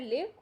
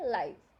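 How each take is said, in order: First: The vowel is short, as in 'give'. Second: The vowel is long, as in 'five'. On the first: "ये इसकी pronunciation है लिव" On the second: "और ये है लाइव"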